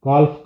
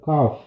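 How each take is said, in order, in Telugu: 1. f ముందు l శబ్దం వినిపిస్తుంది. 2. f ముందు l శబ్దం వినిపించదు. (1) "కాల్ఫ్ కాదు" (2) "కాదు కాఫ్"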